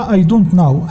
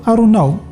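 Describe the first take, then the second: First: Each word is pronounced fully and separately. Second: The words blur together with an r-like sound. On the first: "هكذا كتكتب" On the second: "النطق اللي سمعتي دابا"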